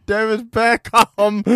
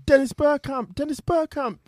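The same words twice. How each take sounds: First: "Bergkamp" loud and drawn out, vowels distorted to "bare-cahm"; mock misheard scream. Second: High, excited football commentator imitation; mock commentator scream. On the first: Showing friends what the commentary sounds like, "Bergkamp" bellowed as "bare-cahm". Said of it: "it sounds like he's screaming". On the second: Imitating the commentator at a World Cup goal, mock high scream. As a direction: cry the player's name out like a commentator. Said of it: "just screaming".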